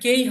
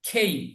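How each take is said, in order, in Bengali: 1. প্রথম K ধ্বনিতে কোনো ফুঁ নেই। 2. প্রথম K ধ্বনিতে জোরালো ফুঁ আছে। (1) "এটা কেই হবে না"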